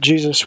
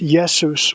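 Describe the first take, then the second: First: The word begins with a J sound. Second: The word begins with a Y sound. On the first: This is the later form that became common. "pronouncing the J with a just sound" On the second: This is the older form, closer to the Greek. "the J sound sounded like a Y. And so it was originally pronounced"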